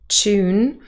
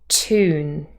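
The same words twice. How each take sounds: First: It starts with a ch sound. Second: It starts with a plain t, no y. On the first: This is a British pronunciation with coalescence. "the pronunciation tune with a ch" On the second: This is the American pronunciation. "the y has disappeared"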